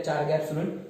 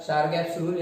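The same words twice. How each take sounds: First: "Chargaff's" starting with CH as in "chart"; standard CH pronunciation. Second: "Chargaff's" starting with a SH sound; alternative pronunciation. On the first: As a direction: say "Chargaff's" as "Char-gaff's". ("Chargaff's" को "चारगैफ्स" बोलें) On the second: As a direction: say "Chargaff's" as "Shar-gaff's". ("Chargaff's" को "शारगैफ्स" बोलें) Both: Shown as a demonstration. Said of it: "कुछ लोग उसको Chargaff भी बोलते हैं".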